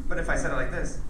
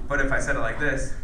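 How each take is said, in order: No difference in how they are said.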